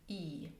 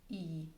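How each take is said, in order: The two takes are said the same way.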